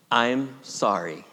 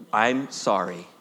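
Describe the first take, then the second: First: Low, slow and sincere; slow humble apology; modelling a prayer. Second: Low, sincere confession; humble apology for the congregation to echo; repeated apology. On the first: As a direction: say it slowly, as a heartfelt confession. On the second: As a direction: say it as a heartfelt apology. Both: Shown as a demonstration. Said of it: "would you repeat those words after me".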